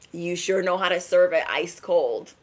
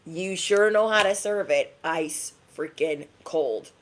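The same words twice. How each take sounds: First: Said in the usual way. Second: "ice freaking cold" slowed, each word set apart; drawn-out emphasis. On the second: Real, not acted. Reader praising someone warm who serves it cold, slow emphasis.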